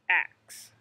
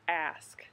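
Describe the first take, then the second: First: The word ends with a k then s sound. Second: The word ends with an s then k sound. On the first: The speaker calls it wrong. "they turn the K sound into an X sound" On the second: The speaker calls it right. "making sure to say that correctly myself"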